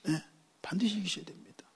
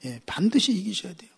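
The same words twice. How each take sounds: First: Whispered repeat. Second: Said in the usual way. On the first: Shown as a demonstration. Preacher repeating urgent exhortation, whispered. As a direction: whisper the 반드시 line as a secret.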